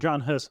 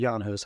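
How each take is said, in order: First: The name is given an anglicized pronunciation. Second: The name is given a European pronunciation.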